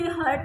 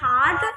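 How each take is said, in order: First: The vowel sounds like the one in 'hurt'. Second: The vowel is a long open 'ah'. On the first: The speaker calls it wrong. "उसे हर्ट नहीं बोलना" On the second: The speaker calls it right. "उसे हमने बोलना है हार्ट"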